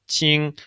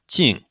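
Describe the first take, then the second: First: The pitch stays high and level. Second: The pitch falls sharply from high. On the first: It means surprise. "in the first tone, it means like surprise" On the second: It means an outcome. "And lastly"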